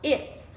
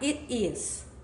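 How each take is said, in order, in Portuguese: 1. É contraído em uma única sílaba curta. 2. É dito como duas palavras separadas e completas. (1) "você vai falar it's" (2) "Então você não vai falar it is"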